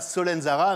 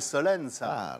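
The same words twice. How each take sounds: First: The final syllable is fully pronounced. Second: The final syllable is dropped. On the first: The speaker calls it wrong. "Un Corse ne dira pas Solenzara" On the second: The speaker calls it right. "on ne prononce pas la dernière syllabe des noms"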